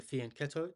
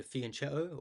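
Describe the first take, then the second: First: "fianchetto" with the ch said as k; "fianchetto" said with a k sound; hard "k" pronunciation. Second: "fianchetto" with ch as in chess; "fianchetto" said with a ch sound; soft "ch" pronunciation. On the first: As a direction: say "fianchetto" as fee-an-KET-o. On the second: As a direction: say "fianchetto" as fee-an-CHET-o. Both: Shown as a demonstration. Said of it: "how do you guys pronounce it".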